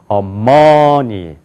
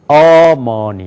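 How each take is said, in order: First: The stress is on the second syllable. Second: The stress is on the first syllable. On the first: "두 번째 여기가 강조해서" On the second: "앞에가 강조가 되면은"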